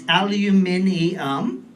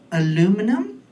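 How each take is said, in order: First: The word is said with more syllables. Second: The word is said with fewer syllables. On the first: This is the form the speaker grew up with. The speaker calls it right. "There's way more syllables. It's aluminium" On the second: This is how most of the audience says it. The speaker calls it wrong. "most of you people say the word aluminum. That's wrong"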